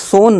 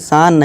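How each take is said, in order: First: The vowel is a rounded o sound. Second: The vowel is a long open aa sound. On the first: "इसे सोन नहीं" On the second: "सान नहीं"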